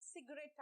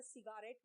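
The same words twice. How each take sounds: First: सिगरेट in two syllables, 'sig-ret'; short 'sig', then 'ret' in सिगरेट; correct pronunciation. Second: सिगारेट with a long 'gaa' in the middle; the mistaken सिगारेट, 'si-gaa-ret'; wrong pronunciation. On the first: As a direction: say सिगरेट with the middle vowel dropped. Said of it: "सिगरेट आ रहा है". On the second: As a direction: show the error: three full syllables in सिगारेट. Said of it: "मत कर देना". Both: Shown as a demonstration.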